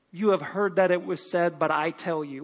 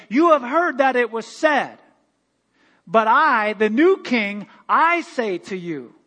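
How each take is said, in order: First: Said in the usual way. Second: Loud, slow royal decree; a king declaring new law to the conquered; proclaiming king. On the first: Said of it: "What is this". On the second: Pretend. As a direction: announce it like a new king taking the throne. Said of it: "He would come in and say".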